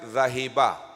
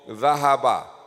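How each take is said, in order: First: The middle vowel is 'i'. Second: The middle vowel is 'a'. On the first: The speaker calls it wrong. "This is not zahiba" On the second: The speaker calls it right. "Maftuhul ain"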